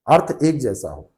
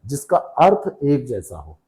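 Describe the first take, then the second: First: Said in the usual way. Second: earth stressed, phrase said slowly; slow stress on meaning. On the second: Shown as a demonstration. Teacher stressing earth while defining synonyms, slowly. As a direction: lean on earth and take it slow.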